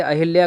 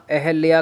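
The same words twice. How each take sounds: First: अहिल्या with a clear hi, a-hil-ya; wrong form. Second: अहिल्या said as eh-lya, no hi; correct form. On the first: Teacher rejecting the mistake, अहिल्या with hi. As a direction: sound the i after h in अहिल्या. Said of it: "गलत है". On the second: Teacher confirming the right name, अहिल्या as ahalya. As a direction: say अहिल्या like अहल्या. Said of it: "correct है". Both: Shown as a demonstration.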